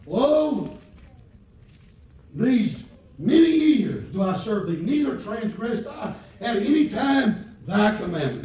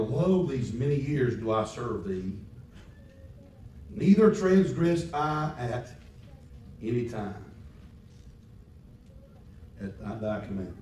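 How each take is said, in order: First: Big high shouted Lo, slow and loud; preached quote, loud. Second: Said in the usual way. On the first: Shown as a demonstration. Preacher shouting the elder son's words to the congregation. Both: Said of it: "He said".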